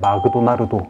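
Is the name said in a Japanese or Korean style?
Japanese. It is said in a Japanese-style accent.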